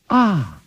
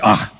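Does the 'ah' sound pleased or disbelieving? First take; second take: pleased; disbelieving. First: It sounds pleased and warmly relieved. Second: It sounds doubtful and disbelieving.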